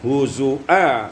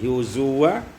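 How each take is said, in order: First: A glottal stop is in the middle. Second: A w sound is in the middle.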